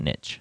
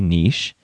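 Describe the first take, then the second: First: The word is said the US way. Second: The word is said the European way. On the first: This is how people in the U.S. say it. "in the U.S. we call it niche" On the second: This is how people in European countries say it. "from European countries, they may say niche"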